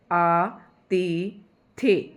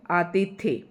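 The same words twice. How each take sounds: First: आतिथ्य spoken very slowly, syllable by syllable; slow careful pronunciation. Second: Said in the usual way. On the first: Shown as a demonstration. Teacher drilling students on आतिथ्य, very slow and syllabic. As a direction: spell out आतिथ्य with your voice, falling at the end. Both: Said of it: "आतिथ्य ये अतिथि से बना है".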